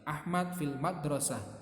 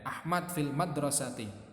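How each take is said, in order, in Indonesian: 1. Kata terakhir berakhir tanpa vokal akhirnya. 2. Kata terakhir berakhir dengan vokal yang jelas. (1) "Kalau mau disukun" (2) "Kalian tirukan dua-duanya ya"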